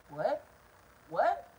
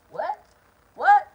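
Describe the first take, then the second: First: Said in the usual way. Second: What? What? rising to a high, loud yell; incredulous shouted What; outraged shout. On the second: Retold or imitated. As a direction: yell it back in disbelief. Escalated outraged repeat of "What?.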